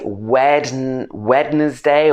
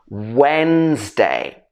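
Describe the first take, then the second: First: It begins with a pronounced 'wed' sound. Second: It begins with a 'wenz' sound. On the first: The speaker calls it wrong. "A lot of people will say" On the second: The speaker calls it right. "It should be Wens at the beginning"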